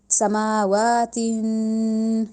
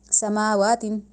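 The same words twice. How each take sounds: First: سماواتن slow, ending nasal and held; correct nasal tanween. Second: سماواتن clipped short with no nasal hold; rushed wrong tanween. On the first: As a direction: pause on سماواتن and carry the ن through the nose. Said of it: "یہ رہے گی درست ہے". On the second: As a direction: rush through سماواتن without pausing. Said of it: "اب غلط کیا ہے؟". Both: Shown as a demonstration.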